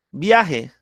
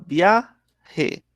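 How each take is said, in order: First: Said in the usual way. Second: VIAJE broken into "via" and "je", with a pause between; "viaje" syllable by syllable: via, je; split into syllables. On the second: Shown as a demonstration. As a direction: say viaje in two separate beats, higher on "via". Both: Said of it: "Mire que se está formando".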